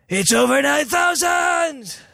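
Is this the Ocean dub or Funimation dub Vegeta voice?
Ocean dub. It imitates the Ocean dub's Vegeta voice.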